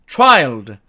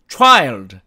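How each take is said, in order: The two takes are said the same way.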